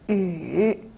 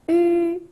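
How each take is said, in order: First: The pitch dips low then rises. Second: The pitch stays high and level.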